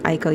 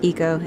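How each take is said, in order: First: The name begins with an 'eye' sound. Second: The name begins with an 'ee' sound. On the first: The speaker calls it wrong. "Anyone who pronounces it Aiko, you are pronouncing it incorrectly" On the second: The speaker calls it right. "it is pronounced Iko"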